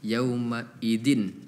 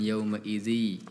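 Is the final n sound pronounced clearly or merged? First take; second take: clear; merged. First: The n sound is pronounced clearly and separately. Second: The n sound is merged into the next word. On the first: The speaker calls it wrong. "tadi dibacanya yauma idzin ... Dibaca izhar tadi" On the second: The speaker calls it right. "bukan yauma idzi ya"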